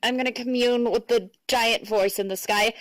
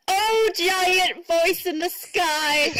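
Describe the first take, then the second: First: Said in the usual way. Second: High, slow, pleading call to the sky; grand invocation. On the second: Pretend. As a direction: call out to the heavens like a supplicant.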